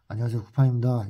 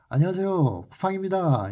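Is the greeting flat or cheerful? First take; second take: flat; cheerful. First: The greeting sounds flat and unsmiling. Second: The greeting sounds bright and smiling.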